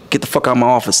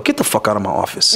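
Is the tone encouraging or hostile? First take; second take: encouraging; hostile. First: The tone is upbeat and encouraging. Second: The tone is harsh and hostile. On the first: The speaker is cheering the person on. "that encouraging" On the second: The speaker is angrily sending the person away. "There's a difference between that and, yo"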